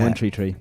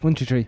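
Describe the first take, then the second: First: The number is said slowly. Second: The number is said quickly.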